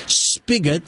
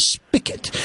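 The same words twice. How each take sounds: First: SPIGOT with a clear hard g; correct pronunciation. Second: SPIGOT said with a k, "spicket"; mistaken pronunciation. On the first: Host telling what he learned, SPIGOT with g. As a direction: say spigot with a voiced g. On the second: Host confessing his old mistake, "spicket" for spigot. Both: Shown as a demonstration. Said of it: "instead of spigot".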